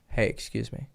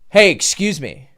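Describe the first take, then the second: First: It is said quietly in a flat monotone. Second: It is said loudly and forcefully.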